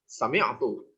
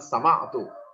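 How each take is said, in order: First: The vowel after the m is 'i'. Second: The vowel after the m is 'a'. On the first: The speaker calls it right. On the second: The speaker calls it wrong. "bukan sama'tu"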